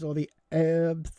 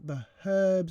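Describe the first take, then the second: First: The word is said the American way. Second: The word is said the British way.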